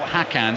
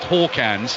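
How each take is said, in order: First: The first vowel sounds like 'hack'. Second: The first vowel sounds like 'hawk'. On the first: The speaker calls it wrong. "although he's spelt Hakans" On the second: The speaker calls it right. "is pronounced Hawkans"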